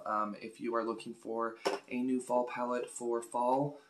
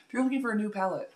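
First: Said in the usual way. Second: Fast, higher, louder retake; quick redo. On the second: Shown as a demonstration. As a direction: rush the corrected line out brightly. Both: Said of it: "that was too much".

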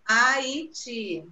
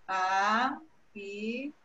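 First: Said in the usual way. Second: HAITI split slowly into separate syllables. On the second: Shown as a demonstration. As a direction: say Haiti in pieces, a pause between each syllable. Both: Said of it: "pede pra separar as sílabas".

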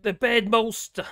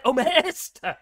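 First: "molster" said as mol-ster, slowly; misread word. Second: "molester" said in full, mo-les-ter, louder; corrected word. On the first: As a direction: stumble over "molster" reading it off. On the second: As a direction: finally get "molester" right. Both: Real, not acted.

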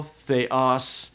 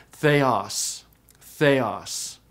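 First: Theos stressed on the last syllable; stress accent. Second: Theos with the pitch going down; grave accent, theos sinking in pitch; falling pitch accent. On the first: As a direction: lean on the os of theos without musical pitch. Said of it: "I just use stress". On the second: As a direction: let the voice drop through theos. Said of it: "originally the pitch went down". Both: Shown as a demonstration.

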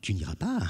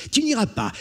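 First: Said in the usual way. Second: "Tu n'iras pas" high and loud, mocking threat; menacing. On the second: Brigand to stubborn Jean, sneering "Tu n'iras pas".

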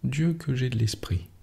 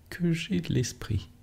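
First: Said in the usual way. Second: Higher and softer, savouring it; a soft, higher echo of her own boast; higher, softer repeat. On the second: A narrator's reading. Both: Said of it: "répétait".

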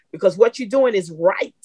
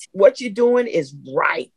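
First: Said in the usual way. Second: Slower, leaning on doing; slow emphatic repeat. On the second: Real, not acted. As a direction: draw it out so it sinks in.

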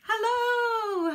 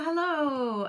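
First: High drawn-out greeting; singsong hello. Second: Said in the usual way. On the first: Real, not acted. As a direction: sing out the hello.

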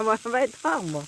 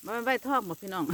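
First: Imitating grandpa. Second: Said in the usual way. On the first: Vlogger mimics grandpa's remark about the fish, higher voice. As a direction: voice grandpa's words, raised up. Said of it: "พ่อใหญ่ว่า". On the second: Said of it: "พ่อใหญ่ว่าบ่แม่นใบทองบ่".

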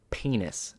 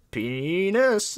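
First: Secretive whisper of one word; whispered game opener. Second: Long, high, loud drawn-out shout; game yell. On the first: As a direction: lean in and whisper it. Leans over, starts the penis game. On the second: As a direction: stretch the word into a yell. Player yells it in the game. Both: Retold or imitated.

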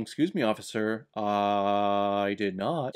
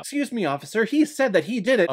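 First: Mock accused man. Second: Hammed-up Ida. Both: Acting out Ida and the accused.

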